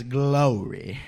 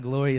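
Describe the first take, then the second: First: "glory" drawn out slowly with a Southern accent. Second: Said in the usual way. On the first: Shown as a demonstration. Preacher showing how the South says glory, drawn-out Southern accent. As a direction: stretch both syllables of "glory", Southern style. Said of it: "especially in the South, it's not glory".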